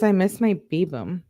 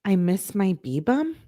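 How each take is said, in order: First: "Babum" said as "bay-bum"; corrected reading. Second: "B-bum" read slowly as "bee-bum", unsure; slow, rising "I miss my B-bum"; puzzled reread. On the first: Shown as a demonstration. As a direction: settle on "Babum" with a rise. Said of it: "He, she says". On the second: Real, not acted. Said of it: "Does she mean Babelet or does she mean babe?".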